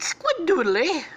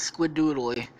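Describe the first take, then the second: First: High, loud, drawn-out catchphrase; Squid character voice. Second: Said in the usual way. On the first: Acted. Squid answering with his catchphrase, high cartoonish voice. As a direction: cry it out slowly, far above your own pitch.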